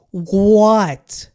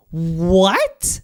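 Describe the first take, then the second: First: A loud, stunned what; outraged shout. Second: A hushed, airy what; stunned whisper. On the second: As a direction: breathe the word out in stunned disbelief. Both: Real, not acted. Disbelief at ranking.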